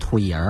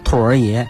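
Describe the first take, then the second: First: The er sound follows the last syllable. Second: The er sound follows the first syllable. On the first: The speaker calls it wrong. "那个儿化音要加的后呢，就变成兔爷儿了" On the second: The speaker calls it right. "儿化音加在中间"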